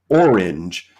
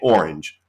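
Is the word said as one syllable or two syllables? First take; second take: two syllables; one syllable. First: The word is drawn out into two syllables. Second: The word is said quickly as one syllable. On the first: It can rhyme with words like door hinge. "if you enunciate it and make it more than one syllable" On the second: Nothing will rhyme with it exactly. "If you're taking the word at face value, you just say orange"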